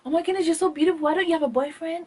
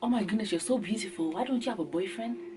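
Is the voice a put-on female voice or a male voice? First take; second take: female; male. First: It is said in a put-on girl's voice. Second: It is said in a guy's voice.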